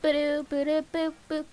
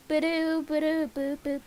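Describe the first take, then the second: No difference in how they are said.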